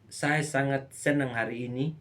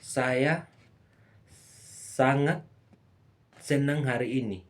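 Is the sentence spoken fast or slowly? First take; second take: fast; slowly. First: The sentence is spoken quickly. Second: The sentence is spoken slowly and drawn out. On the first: It has a more relaxed, casual feel. "Durasi cepat" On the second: It stresses how happy the speaker is. "Jenis durasi lama"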